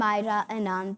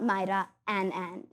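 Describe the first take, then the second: First: The surname is said smoothly as one word. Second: The surname is split into two separate syllables. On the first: The speaker calls it right. "I'm Myra Anand" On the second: The speaker calls it wrong. "not Myra Ann Ann"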